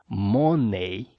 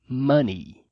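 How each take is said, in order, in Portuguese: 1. A vogal final não é o som de 'ee'. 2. A vogal final é o som de 'ee'. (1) "Cuidado para não pronunciar money" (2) "A pronúncia correta é money. O E Y no final tem o som de I"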